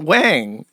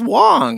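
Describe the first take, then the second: First: The vowel sounds like 'a' in 'bang'. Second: The vowel sounds like 'aw' in 'law'. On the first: The speaker calls it wrong. "It's not Wang" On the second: The speaker calls it right. "It's Wong"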